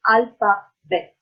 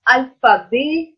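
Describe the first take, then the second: First: The final T is pronounced. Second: The final T is silent. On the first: The speaker calls it wrong. "not alphabet" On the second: The speaker calls it right. "it's alphabet"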